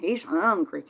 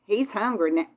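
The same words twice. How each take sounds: First: Said in the usual way. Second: Texas twang on He's hungry now; southern accent. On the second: Real, not acted. She hears her own Southern accent come out to viewers. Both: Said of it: "did you hear that southern accent".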